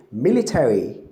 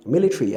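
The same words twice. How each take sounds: First: MILITARY said American style, "MIL-i-TERRY"; American pronunciation. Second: MILITARY said British style, "MIL-i-tree"; short British MILITARY without the "air" sound; British pronunciation. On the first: Teacher showing how an American says military, American pronunciation. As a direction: voice the "air" sound fully in MILITARY. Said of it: "an American will say". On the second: Teacher showing how a Briton says military, British pronunciation. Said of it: "a Briton will say". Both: Shown as a demonstration.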